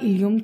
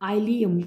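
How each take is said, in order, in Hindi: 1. पहला स्वर एक छोटी 'ih' ध्वनि है। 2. पहला स्वर एक 'eye' ध्वनि है। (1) "इलियम था" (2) "या इसको आइलियम भी कह सकते हैं"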